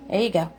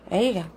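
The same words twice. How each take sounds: The two takes are said the same way.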